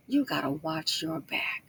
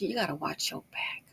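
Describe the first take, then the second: First: Slow, low-key, half-whispered warning; measured, hushed caution. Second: Said in the usual way. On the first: Real, not acted. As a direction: spell the warning out slowly and softly. Repeats warning slowly, low.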